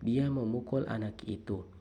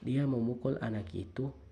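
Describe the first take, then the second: First: The stress falls on the word anak. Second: The stress falls on the word itu. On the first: It concerns a child, not someone else. "Yang memukul adalah anak, bukan nenek maupun lainnya" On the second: That particular child was hit, not this one. "Yang dipukul adalah anak itu, bukan anak ini"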